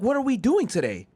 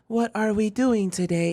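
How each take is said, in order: First: It is said in a lively, natural, expressive voice. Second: It is said in a flat, mechanical, robotic voice. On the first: The character has become more human and confident. "She starts hitting you with the like" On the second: The character still thinks of herself as a machine.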